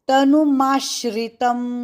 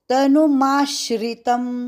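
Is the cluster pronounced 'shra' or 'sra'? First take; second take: shra; shra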